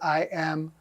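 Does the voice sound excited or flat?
flat. It is said flatly, without rising excitement. "you didn't say I am"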